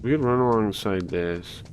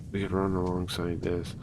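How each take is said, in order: First: Said in the usual way. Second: Snake voice. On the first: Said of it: "Okay, take two". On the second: Shown as a demonstration. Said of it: "I don't know if I could do a snake voice".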